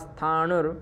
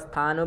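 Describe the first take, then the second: First: The word ends with an r sound. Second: The word ends plainly on the vowel. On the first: "अथवा स्थाणुर ऐसा भी पढ़ सकते हैं" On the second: "अथवा स्थानु भी पढ़ लीजिए"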